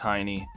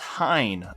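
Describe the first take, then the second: First: The name is said as two syllables. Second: The name is said as one syllable.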